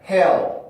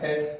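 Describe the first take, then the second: First: The final L is dark, with stressed vowel. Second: The final L is short and clear, Korean-like. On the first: The speaker calls it right. "에 발음에서 혀가 밑으로 왔다가 엘 발음에서 혀가 뜨니까" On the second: The speaker calls it wrong. "헬이 아니고"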